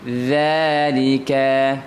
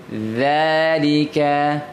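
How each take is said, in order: Both takes have the same delivery.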